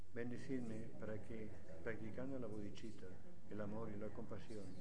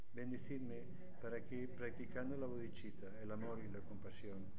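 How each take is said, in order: No difference in how they are said.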